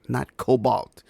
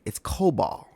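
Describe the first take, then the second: First: The word ends in an 'lt' sound. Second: The word ends in a plain 'l' sound. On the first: The speaker calls it wrong. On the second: The speaker calls it right.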